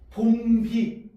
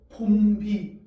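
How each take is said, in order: Both takes have the same delivery.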